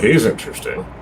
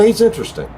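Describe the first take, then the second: First: It sounds sarcastic, not meant literally. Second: It sounds sincere, meant literally. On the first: The speaker does not really mean it. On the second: The speaker really means it.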